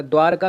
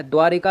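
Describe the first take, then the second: First: द्वारका with "r" straight into "ka"; no "i" in द्वारका, say dvaar-ka; correct pronunciation. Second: द्वारिका with "ri" in the middle; wrong pronunciation. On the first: Teacher confirming the right spelling, द्वारका without middle "i". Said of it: "द्वारका सही है". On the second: Teacher showing the misspelling, द्वारिका with middle "ri". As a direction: sound an "i" after r in द्वारिका. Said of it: "अगर लिखा है तो वो गलत है". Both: Shown as a demonstration.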